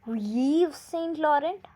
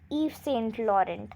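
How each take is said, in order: First: The first name starts with a pronounced Y sound. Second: The first name sounds like 'Eve' with no Y. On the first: The speaker calls it wrong. "Y is written before V, and we must pronounce it like" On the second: The speaker calls it right. "we should always pronounce it like"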